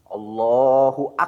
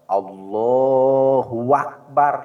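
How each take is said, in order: First: The b in Akbar is doubled. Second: A w sound comes between Allah and Akbar. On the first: "Atau dina akbar ada tasdidan dina huruf ba'na" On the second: "Atau antara Allah dan Akbar di tengahnya ada wawu. Lepat"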